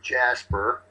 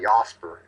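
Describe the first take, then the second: First: The name is said with an English pronunciation. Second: The name is said with a German pronunciation. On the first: "If us Angles pronounce it" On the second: "it's actually Jasper if you're German"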